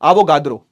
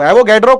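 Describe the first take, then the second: First: The middle vowel sounds like 'a' in father. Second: The middle vowel sounds like 'a' in cat. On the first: The speaker calls it right. "एवोगाद्रो होता है" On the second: The speaker calls it wrong. "एवोगैड्रो कोई सही pronunciation नहीं है"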